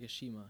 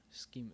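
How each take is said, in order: First: A shima said with sh, like SHEE-muh; shima pronunciation. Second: Schema said with a hard sk, SKEE-muh; schema pronunciation. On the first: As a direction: say shima with a soft sh, not sk. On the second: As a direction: say Schema starting with a clear k sound. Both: Shown as a demonstration. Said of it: "Yeah, or, like".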